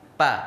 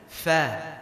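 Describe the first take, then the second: First: The syllable begins with a p sound. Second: The syllable begins with an f sound. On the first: The speaker calls it wrong. "Lebih dekat ke p dibacanya" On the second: The speaker calls it right. "Sedangkan ini fa"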